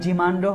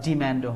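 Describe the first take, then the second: First: It is said with a non-American accent. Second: It is said with an American accent.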